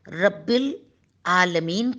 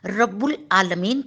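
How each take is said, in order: First: The vowel after rabb is i. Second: The vowel after rabb is u. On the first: The speaker calls it right. "बे के नीचे जेर" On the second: The speaker calls it wrong. "जेर की जगह पेश पढ़ते हैं। ये गलत है"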